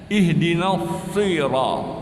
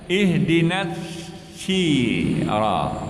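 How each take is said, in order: First: The s sound is heavy and emphatic. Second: The s sound is light and plain. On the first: The speaker calls it right. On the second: The speaker calls it wrong. "dibacanya ... bukan huruf sin tapi huruf sad"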